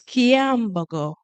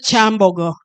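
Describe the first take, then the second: First: The name begins with a 'ky' sound. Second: The name begins with a 'ch' sound. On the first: The speaker calls it right. "No, it's Kiambogo" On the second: The speaker calls it wrong. "we don't say Chambogo"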